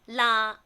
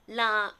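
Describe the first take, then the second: First: The particle is said with tone number three. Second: The particle is said with tone number three.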